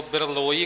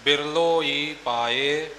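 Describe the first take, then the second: First: ਬਿਰਲੋਈ said as separate parts; ਬਿਰਲੋਈ broken apart, the wrong way; wrong split reading. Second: ਬਿਰਲੋਈ said slowly as one joined word; joined reading. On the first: Teacher shows the wrong reading of ਬਿਰਲੋਈ, split apart. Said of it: "ਕਰਕੇ ਨਹੀਂ ਕਰਨਾ". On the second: Teacher shows ਬਿਰਲੋਈ joined, said slowly. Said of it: "ਸੰਬੰਧਕ ਰੂਪ ਵਿੱਚ ਇਕੱਠਾ". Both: Shown as a demonstration.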